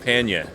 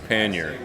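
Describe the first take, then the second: First: It is said in a New England pronunciation. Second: It is said in a general American pronunciation. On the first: "favorite alternate pronunciation is panya, which would be New England" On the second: "I say pannier"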